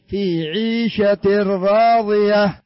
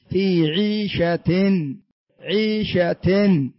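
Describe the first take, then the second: First: عيشة راضية slow, tanween merged: "ʿīshatur-rāḍiya". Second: عيشة very slow with clear tanween "ʿīshatin"; tanween sounded. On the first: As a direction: fold the tanween into the ra. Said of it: "لكن لما كان بعدها راء". (إدغام التنوين في الراء ببطء) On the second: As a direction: stretch out the noon of عيشة. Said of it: "لو لم يكن بعدها راء كيف سننطقها؟". (تنوين ظاهر ببطء شديد) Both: Shown as a demonstration.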